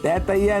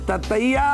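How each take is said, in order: First: The first vowel is a long 'ai' sound. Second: The first vowel is a short 'a' sound. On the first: The speaker calls it wrong. "तैतैया नहीं" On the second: The speaker calls it right.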